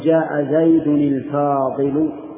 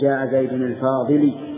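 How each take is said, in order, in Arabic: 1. تنتهي الكلمة الأخيرة بضمة. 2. تنتهي الكلمة الأخيرة بحركة أخرى. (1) "فإذا صار المنعوت مرفوعا صار النعت مرفوعا" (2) "لا يصح أن تقول"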